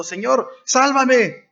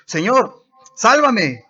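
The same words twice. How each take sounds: First: Very high, slow, stretched plea for rescue; drawn-out pleading cry. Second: High, loud panicked plea; desperate cry for help. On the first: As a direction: wail it slowly, begging to be saved. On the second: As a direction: shout it like a man sinking into the sea. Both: A narrator's reading. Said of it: "dio voces diciendo".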